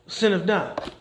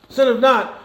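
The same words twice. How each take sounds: First: Said in the usual way. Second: Sinneth NOT, the not punched higher and louder; stress on not. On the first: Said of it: "Sinneth not, again". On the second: Shown as a demonstration. Preacher repeating to the church, punching not. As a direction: hit not hard the second time.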